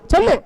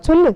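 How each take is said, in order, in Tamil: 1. கடுமையான, பொறுமையற்ற தொனியில் சொல்லப்படுகிறது. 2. மெதுவான, கெஞ்சும் தொனியில் சொல்லப்படுகிறது. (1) "இதே சொல்லி தொலை அப்படின்னு அர்த்தம்" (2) "ஏதோ நயந்து கேட்கிற மாதிரி தான்"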